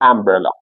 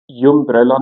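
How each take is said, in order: First: The word begins with a plain vowel sound. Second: The word begins with a y sound. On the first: The speaker calls it right. "umbrella صدای ا داره" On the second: The speaker calls it wrong. "اینجا یومبرلا نمیخونید"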